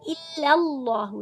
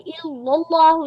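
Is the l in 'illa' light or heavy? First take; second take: light; heavy. First: The l in 'illa' is light and thin. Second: The l in 'illa' is heavy and full. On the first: The speaker calls it right. "इल्ला में समझ लीजिए लाम बारीक है" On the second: The speaker calls it wrong. "नहीं पढ़ना"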